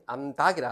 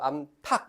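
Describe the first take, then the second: First: The middle t sound is plain, without breath. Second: The middle t sound is aspirated, with breath. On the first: The speaker calls it wrong. "안 하고" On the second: The speaker calls it right. "이렇게 막 하잖아"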